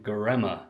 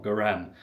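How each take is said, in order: First: Göreme with its final vowel sounded; corrected Göreme. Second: Görem with the final vowel dropped; mispronounced Göreme. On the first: Vlogger corrects the town's name, Göreme said with the last vowel sounded. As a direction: say Göreme in three syllables, "guh-REM-uh". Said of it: "not Görem". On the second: Vlogger shows the mistaken town name, Görem cut to end on "m". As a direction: say Görem in two syllables, ending on "m". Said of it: "now we know that". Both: Shown as a demonstration.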